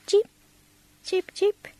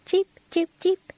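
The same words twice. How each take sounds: First: Small high-pitched chirps; short, spaced high cheeps; faint bird cheep. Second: High-pitched little chirps; quick, high cheeps; louder bird cheep. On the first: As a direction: imitate a little bird, faintly. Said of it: "they heard a faint". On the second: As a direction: imitate a small bird calling, nearer now. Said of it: "came louder and louder". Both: A narrator's reading.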